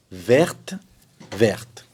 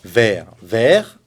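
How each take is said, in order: First: "verte, verte" each with a released t; two matched "verte", t clearly heard; feminine, sounded T. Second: "Vert, vert" ending on r, no t; two matched "vert", t left silent; masculine, silent T. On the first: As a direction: say both "verte" through to the final t. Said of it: "le féminin pareil". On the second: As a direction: say both "vert" alike, stopping at the r. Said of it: "Le masculin se prononce pareil". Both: Shown as a demonstration.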